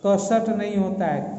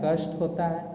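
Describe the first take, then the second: First: कषट said as ka-shat, the vowel spoken between ष and ट; कषट with the extra a sounded out; wrong pronunciation. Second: कष्ट said with ष and ट run together, no vowel between them; कष्ट said as one tight cluster; correct pronunciation. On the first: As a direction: split कषट into two syllables, ka-shat. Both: Shown as a demonstration.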